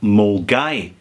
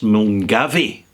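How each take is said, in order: First: It is said short, like 'mul-guy'. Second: It is said fully as the letters spell it. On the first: This is how locals say the name. The speaker calls it right. "called Mulgai" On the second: This is how an outsider reading the name says it. The speaker calls it wrong. "pronounce it phonetically"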